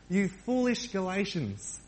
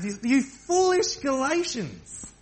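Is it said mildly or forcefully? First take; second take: mildly; forcefully. First: It is said mildly, without force. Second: It is said forcefully, with strong emphasis.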